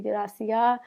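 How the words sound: The final S sound is dropped. "they don't pronounce their S's"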